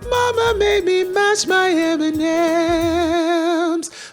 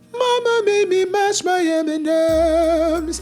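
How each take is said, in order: First: It is said in a full head voice. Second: It is said in an airy falsetto.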